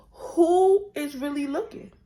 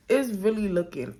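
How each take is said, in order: First: Loud, high excited exclamation. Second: Said in the usual way. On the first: Real, not acted. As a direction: belt it out, thrilled. Repeats phrase, much louder and higher.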